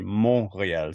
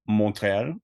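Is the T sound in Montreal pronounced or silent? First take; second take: silent; pronounced. First: The T sound is left out. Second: The T sound is clearly pronounced. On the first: The speaker calls it right. "it's actually supposed to be Montreal, so you don't pronounce the T" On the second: The speaker calls it wrong. "because I kept calling like uh, Montreal"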